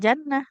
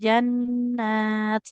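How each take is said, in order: First: The word ends with an h sound. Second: The word ends with a t sound. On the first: The speaker calls it wrong. "enggak jannah" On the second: The speaker calls it right. "Kalau huruf tak yang ini tetap tak"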